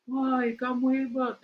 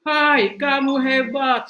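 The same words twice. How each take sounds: First: Echo. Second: High, loud, slow shout of praise; father shouting. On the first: Echo returns father's words. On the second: A father on the mountain calls out loud, slow praise to the echo. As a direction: call out the praise across the valley. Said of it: "Sang ayah teriak". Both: Acted.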